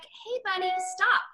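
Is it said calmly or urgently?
calmly. It is said in a calm, casual tone.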